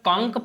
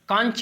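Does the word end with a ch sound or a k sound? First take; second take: k; ch. First: The word ends with a k sound. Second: The word ends with a ch sound. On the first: The speaker calls it right. "कांक पढ़ा जाता है" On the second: The speaker calls it wrong. "कांच की जगह"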